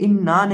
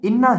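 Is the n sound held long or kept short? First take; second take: long; short. First: The n is loose and stretched out long. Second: The n is kept short without stretching. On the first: The speaker calls it wrong. "ये इन्ना नहीं है" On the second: The speaker calls it right. "इन्ना है"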